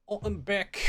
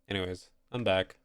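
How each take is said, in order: First: Put-on higher, playful English accent. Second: Said in the usual way. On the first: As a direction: switch into a cheeky English accent. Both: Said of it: "I go into doing English accents".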